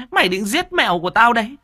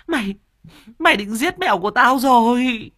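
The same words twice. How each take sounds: First: Fast, high screeching accusation rising on mày; furious stepmother shriek. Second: High screech, louder, stressing mày then falling; furious stepmother shriek. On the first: Stepmother accusing the boy of killing her cat, fast rising shriek. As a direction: rattle it off fast and high, voice climbing. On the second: Stepmother repeating her accusation at the boy, high falling shriek. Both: Acted.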